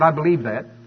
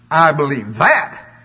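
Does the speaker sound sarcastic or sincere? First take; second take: sincere; sarcastic. First: It is said plainly, sounding sincere. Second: It is said with a doubtful, sarcastic inflection. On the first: The speaker really believes it. "in the email, if I just said" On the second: The speaker does not really believe it. "I said it like this"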